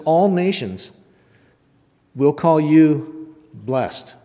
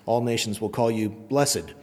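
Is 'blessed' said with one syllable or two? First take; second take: one; two. First: The word blessed has one syllable. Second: The word blessed has two syllables. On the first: "That's the NIV" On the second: "The KJV pronunciation is, Maybe that has more gravitas"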